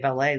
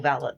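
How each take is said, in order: First: It is pronounced the French way. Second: It is pronounced the English way. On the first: "you guys say ballet like the French" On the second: "in England, ... it's all valet"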